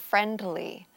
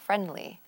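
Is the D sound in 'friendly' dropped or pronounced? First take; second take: pronounced; dropped. First: The D sound in the middle is pronounced. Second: The D sound in the middle is dropped.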